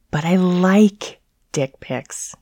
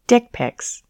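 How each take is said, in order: First: Slow mocking baby whine; whiny baby voice. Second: Said in the usual way. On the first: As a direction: whine it like a spoiled toddler. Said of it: "her signature mocking, whiny baby voice".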